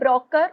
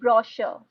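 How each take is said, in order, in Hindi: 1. बीच का व्यंजन k की आवाज़ है। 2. बीच का व्यंजन sh की आवाज़ है। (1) "do we say broker" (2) "It's brochure"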